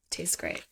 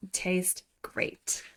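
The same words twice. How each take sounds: First: Soft murmur. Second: Whispered "Tastes great." with no voice at all. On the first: Quoting villain twice. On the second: Bastian to Shara, whispering "Tastes great.". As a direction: breathe "Tastes great." as a hushed tease. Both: Retold or imitated.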